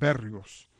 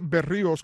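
First: The stress falls on a different syllable. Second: The stress falls on the syllable with i. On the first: "yo también he escuchado que le dicen Berríos" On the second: "con acento en la I"

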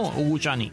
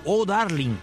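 First: It is slurred English-style, sounding like Guchani. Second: It is read with plain Spanish sounds. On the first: It is how the original singer actually says it. The speaker calls it right. "Pero si [name] no dice Oh Darling por ningún lado" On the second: It is how the written title was read locally. The speaker calls it wrong. "tú te ibas al fonema castellano"

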